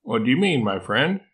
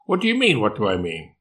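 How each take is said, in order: First: Mildly puzzled, feigned concern; gently questioning a friend, lifting at the end; a touch of innocent confusion; confused and concerned. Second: Incredulous echo. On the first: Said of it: "with a confused and concerned expression". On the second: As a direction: throw the question back in disbelief. Koala incredulously throws question back. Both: Acted.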